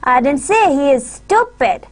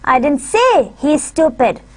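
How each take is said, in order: First: The stress is on the word stupid. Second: The stress is on the word say. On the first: "we would put our stress on stupid" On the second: "I would uh, put my stress on say"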